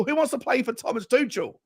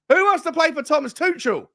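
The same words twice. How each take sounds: First: Said in the usual way. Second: Higher, louder taunt; scornful jeering question; mocking rhetorical challenge. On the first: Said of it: "repeated for emphasis". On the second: Real, not acted. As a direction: throw it out as a dare. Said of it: "repeated louder".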